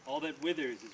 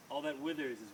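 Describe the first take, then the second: No difference in how they are said.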